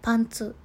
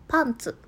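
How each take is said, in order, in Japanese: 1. 音の高さは単語の最後まで平らです。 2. 音の高さは高く始まり、その後で下がります。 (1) "ズボンの場合は、" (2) "下着の方は"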